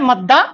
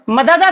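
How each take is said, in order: First: The two d sounds merge into a doubled d. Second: The two d sounds are separated by a vowel. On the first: "क्या बन जाता है मद्दा" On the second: "मददा था नॉर्मल"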